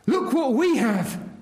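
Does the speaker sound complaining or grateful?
grateful. It is said in a grateful, celebrating tone. Praise for what has been received. "Look what God has done for us"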